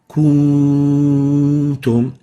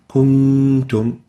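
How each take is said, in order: First: The nasal n sound is stretched too long. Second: The nasal n sound is held briefly. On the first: The speaker calls it wrong. "if we extend the ghunna of the noon, it will sound like" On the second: The speaker calls it right. "That is reasonable for it"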